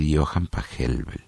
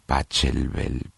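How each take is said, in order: First: The ch sounds like a Spanish j. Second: The ch sounds like English ch. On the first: This is the most correct way to say it. The speaker calls it right. "la CH se pronuncia como una J, entonces decimos, lo más correcto es decir" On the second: This is how some people say it. The speaker calls it wrong. "algunos dicen Pachelbel"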